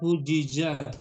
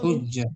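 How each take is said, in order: First: A short i vowel separates the two j sounds. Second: The two j sounds merge into one doubled j. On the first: This is the underlying original form. "Asalnya hujijah" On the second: This is how the form is actually read. "Jadi dibacanya hujjah"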